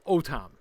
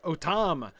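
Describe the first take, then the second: First: The stress is on the first syllable. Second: The stress is on the second syllable. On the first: The speaker calls it right. "the stress is on that syllable" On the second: The speaker calls it wrong. "this is not Otam"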